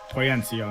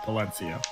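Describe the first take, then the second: First: The middle consonant is a Y sound. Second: The middle consonant is an L sound. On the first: The speaker calls it right. "It's Poyencio" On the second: The speaker calls it wrong. "I mispronounced that. ... not Polencio"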